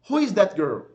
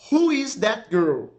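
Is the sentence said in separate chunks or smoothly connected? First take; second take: smoothly connected; chunks. First: It is said smoothly without breaks between words. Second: It is said in separate chunks with breaks. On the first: "depois eu falei fluidamente, naturalmente" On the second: "primeiro eu fui naquele esquema de trabalhar a frase em blocos da pronúncia"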